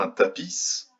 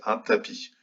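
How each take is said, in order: First: "tapis" with the silent final s sounded; s final prononcé. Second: "tapis" ending on the i, s silent; s final muet. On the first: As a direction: say "tapis" wrongly, ending on an audible hissed s. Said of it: "On ne dit pas". (« tapis » en faisant entendre le s final) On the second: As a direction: say "tapis" correctly, with no s sound at the end. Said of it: "on dit juste". (« tapis » sans prononcer le s final) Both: Shown as a demonstration.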